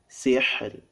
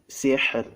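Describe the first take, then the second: Both takes have the same delivery.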